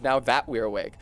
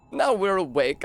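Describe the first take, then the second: First: Said in the usual way. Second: Clipped British "Now we're awake", tongue slipping; the shaman's British-accented "Now we're awake". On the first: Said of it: "that's British instead of". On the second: Shown as a demonstration. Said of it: "that's British instead of now that we're awake".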